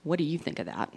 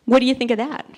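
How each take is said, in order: First: Flat echo. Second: Bright, eager question, louder; hopeful question. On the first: Teen daughter echoing mom's question, flat and deadpan. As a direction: hand the question back unimpressed. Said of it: "She goes". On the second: Mom showing off her skirt to daughter, eager. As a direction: show off the new skirt hoping for praise. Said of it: "I said". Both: Retold or imitated.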